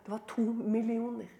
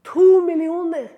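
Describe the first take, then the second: First: Soft, held-back delivery; hushed reveal. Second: Loud, raised, ringing repeat; emphatic repeat. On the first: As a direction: let the figure out quietly. Reveals figure quietly, then repeats. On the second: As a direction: hit TO hard and high, sustain millioner. Repeats the figure for impact. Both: Real, not acted.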